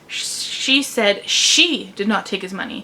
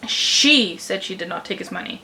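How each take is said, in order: First: The stress is on the second she. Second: The stress is on the first word, she. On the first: Someone other than her took the money. "which means that it wasn't her who took the money, it was someone else" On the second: She, not someone else, was the one who said it. "which means she said it, not someone else"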